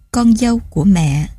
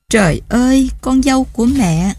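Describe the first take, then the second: First: Said in the usual way. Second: Higher, moved exclamation; sudden emotional outcry. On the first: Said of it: "Mấy tiếng". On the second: A narrator's reading. Mother-in-law overcome before Nhược Lan, sudden outcry. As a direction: cry it out as if unable to hold back. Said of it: "bà đột ngột kêu lên".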